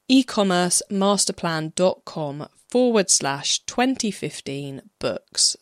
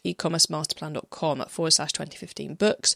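First: It is said noticeably more slowly. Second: It is said at normal, quick speed.

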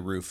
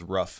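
First: The word is said in a standard pronunciation. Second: The word is said in a Boston pronunciation. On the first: "She doesn't say roof" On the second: "She says rough"

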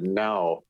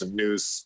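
First: The vowel sounds like the vowel in 'now'. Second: The vowel sounds like the vowel in 'news'. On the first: The speaker calls it right. "but now" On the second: The speaker calls it wrong. "I keep saying now's news"

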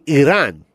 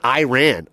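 First: The first vowel is a short, soft sound. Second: The first vowel is a long 'eye' sound. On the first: The speaker calls it right. "They say Iran" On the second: The speaker calls it wrong. "They don't have hard I's there. They don't say Iran"

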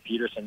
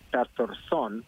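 First: The name is said in a North American way. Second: The name is said in its original way. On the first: The name is adapted to local habits. "a little bit of a North American Peterson" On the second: The name keeps its native form. "in actuality, it's Pettersson"

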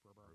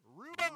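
First: It is murmured like background crowd noise. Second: It is loudly over-enunciated, each sound exaggerated.

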